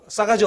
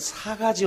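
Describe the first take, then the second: First: The first consonant is tense and strong. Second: The first consonant is plain and soft. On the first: It sounds harsh and rude. "발음도 싸가지가 없잖아요. 그러니까 너무 세죠" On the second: It sounds softened and milder. "요걸 조금 순화시켜서"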